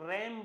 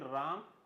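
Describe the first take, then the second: First: The vowel sounds like the one in 'cat'. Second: The vowel sounds like the one in 'father'. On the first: The speaker calls it right. "उसको रैम बोलते हैं" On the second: The speaker calls it wrong. "ना कि राम"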